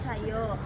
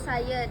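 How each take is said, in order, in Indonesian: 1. Kata ini berakhir dengan vokal 'o' yang jelas. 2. Kata ini berakhir dengan vokal 'uh' yang lemah. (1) "menjadi o" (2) "kata halus yang berakhir e lemah"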